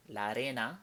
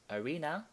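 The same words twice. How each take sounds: First: La arena said the Spanish way, ah-REH-nah. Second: Arena said the English way, uh-REE-nuh. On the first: Teacher contrasts it with the English word, Spanish pronunciation. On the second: Teacher gives the English word first, English pronunciation. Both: Shown as a demonstration. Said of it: "loans from Spanish into English".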